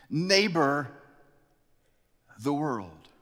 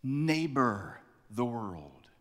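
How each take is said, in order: First: "Neighbor" lifted and punched, "the world" dropped after it; pointed emphasis on the verb; stress on Neighbor. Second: Neighbor the world drawn out very slowly; slow weighty proclamation; slow solemn quote. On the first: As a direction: hit "Neighbor" hard, then let the rest fall. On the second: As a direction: let "Neighbor the world." sink in, word by word. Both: Shown as a demonstration. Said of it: "Jesus says".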